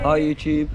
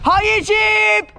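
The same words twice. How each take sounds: First: The greeting is said flatly, with little energy. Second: The greeting is said with lively energy.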